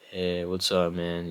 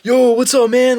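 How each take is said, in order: First: It is said flat and lifeless. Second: It is said lively and energetic.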